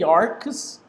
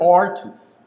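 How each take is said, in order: First: "arches" said like "arks", with a hard k; "arches" with k replacing the ch; alternative pronunciation. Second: "arches" with a ch sound, no hard k; preferred pronunciation. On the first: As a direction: say "arches" with a k sound for the ch. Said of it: "It's okay to say arches or arches". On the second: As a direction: say "arches" with ch as in church. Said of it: "but I say arches because my references". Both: Shown as a demonstration.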